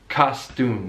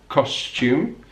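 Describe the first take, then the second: First: No y sound follows the t. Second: A y sound follows the t. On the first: "In American English, that y sound, it disappears" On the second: "Benedict Cumberbatch says costume"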